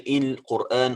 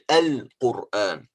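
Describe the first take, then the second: First: The word begins with an i vowel. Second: The word begins with an a vowel. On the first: The speaker calls it wrong. "We don't say Il-Quran" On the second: The speaker calls it right. "we say Al-Quran, like this"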